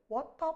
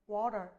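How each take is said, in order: First: It is said with a Korean loanword pronunciation. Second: It is said with an American English pronunciation. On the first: "실제 우리 발음" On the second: "실제로 미국에서 이거 어떻게 발음해?"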